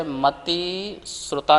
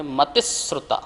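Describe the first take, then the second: First: मति and श्रुता said as two separate words; मति श्रुता, the split reading to avoid; wrong split. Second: मतिश्रुता run together as one word; मतिश्रुता, one smooth word; joined reading. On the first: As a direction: break मति श्रुता apart with a gap. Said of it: "मति श्रुता नहीं पढ़ेंगे". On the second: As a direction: join मतिश्रुता without a break, श्रु flowing into ता. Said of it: "मति श्रुता नहीं पढ़ेंगे, मतिश्रुता". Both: Shown as a demonstration.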